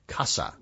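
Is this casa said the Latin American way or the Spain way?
Latin American. The S is a hissing sibilant sound. "In Latin America, they say it the way I just did, casa, with a sibilant S"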